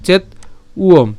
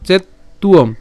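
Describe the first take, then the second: First: "চেত উয়ম" in two parts, paused after চেত; split pronunciation. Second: "চেত তুয়ম" as chet-tuom with doubled t; joined pronunciation. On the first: Teacher breaks the word down for learners, "চেত উয়ম" split by a pause. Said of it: "তাহলে চেত উয়ম". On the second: Teacher puts the parts together, "চেত তুয়ম" with a doubled t. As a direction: hold the t in "চেত তুয়ম" and run into uom. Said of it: "ত এর সাথে উয় যখন উচ্চারণ হবে". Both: Shown as a demonstration.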